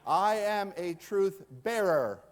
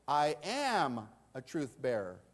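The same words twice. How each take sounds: First: The stress is on "bearer". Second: The stress is on "am".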